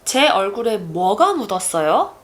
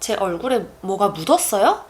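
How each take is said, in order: First: The stress falls on the word 뭐가. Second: The stress falls on the word 묻었어요. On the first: The asker knows something is there and wants to know what. "if I put the emphasis on 뭐" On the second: The asker wants to know whether anything is there at all. "If I place the emphasis on 묻었어요?"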